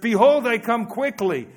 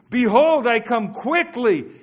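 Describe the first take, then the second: First: It is said calmly, without much energy. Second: It is said with loud, enthusiastic energy.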